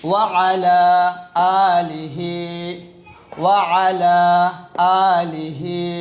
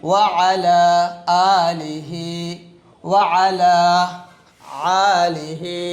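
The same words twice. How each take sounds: No difference in how they are said.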